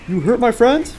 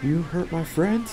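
First: Loud, high outraged question; indignant shout. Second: Soft, slow threatening question; quiet menace. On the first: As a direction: yell it in outrage. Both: Pretend. Teammate wounded, mock threat.

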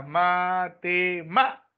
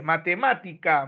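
First: "matemática" slowly split into ma-te-MÁ-tica; syllable by syllable. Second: Said in the usual way. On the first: Shown as a demonstration. Teacher finding the stressed syllable for students, slow syllable-by-syllable "matemática". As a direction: sound out "matemática" in separate syllables, leaning on "má". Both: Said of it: "tengo que saber qué clase de palabra es".

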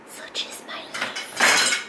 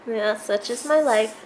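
First: Slow whispered aside; hushed, drawn-out whisper. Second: Said in the usual way. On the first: Real, not acted. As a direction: whisper it slowly, almost to yourself. Whispered repeat of same words.

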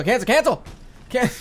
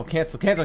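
First: Frantic cancel. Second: Said in the usual way. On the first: Real, not acted. Gamer stabbing the cancel button, panicked yelp.

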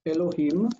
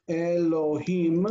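First: Said in the usual way. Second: Elohim in slow, separate syllables, e-lo-heem; careful pronunciation. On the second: Shown as a demonstration. Teacher showing the plural word for God, Elohim said slowly and distinctly. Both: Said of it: "when you use the word God".

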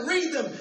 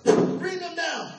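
First: Plain first order, a touch higher; doctor ordering. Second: Slow, louder mock-stern order; stern command. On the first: Retold or imitated. Eye doctor giving the patient his first order, mild. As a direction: say it as a first request. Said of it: "He said". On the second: Eye doctor repeating his order to the patient, stern and slow. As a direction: bark the order slowly, higher. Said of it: "he goes".

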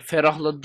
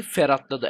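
First: Said in the usual way. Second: "ferhatladı" with a t where ferahladı has h; punning mispronunciation. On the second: Shown as a demonstration. Gamer insisting on his pun after the drink, "ferhatladı" with a t. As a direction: say "ferhatladı", the joke version with a t. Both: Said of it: "Ferahladı değil, ferhatladı".

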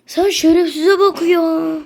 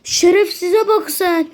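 First: Said in the usual way. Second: "bak" drawn out and slowed; stress on bak. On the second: Real, not acted. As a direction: slowly lean on "bak". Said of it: "repeated with stress".

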